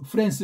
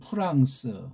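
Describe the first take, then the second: First: It is said with an American English pronunciation. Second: It is said with a Korean pronunciation. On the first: "미국애들은 뭐래요? 뭐 음, 프랑스 그럽니까?" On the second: "우린 프랑스 그러잖아요"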